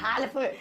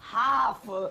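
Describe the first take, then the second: First: The L sound is pronounced before the F. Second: The L is silent, no L sound heard. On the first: The speaker calls it wrong. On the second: The speaker calls it right.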